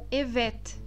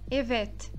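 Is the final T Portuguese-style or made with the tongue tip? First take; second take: tongue tip; tongue tip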